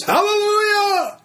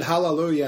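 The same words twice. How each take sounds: First: Very high, drawn-out hallelujah cry; imitated scream. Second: Said in the usual way. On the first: Preacher imitating a healed man at the meeting, high screamed hallelujah. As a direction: belt it out like the man screaming, slightly toned down. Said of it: "began to scream at the top of his lungs". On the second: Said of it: "he shouted".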